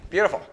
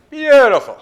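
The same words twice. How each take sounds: First: Said in the usual way. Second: Much higher and louder, a happy falsetto cry; delighted squeal. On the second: Real, not acted. Admiring a good metal fit.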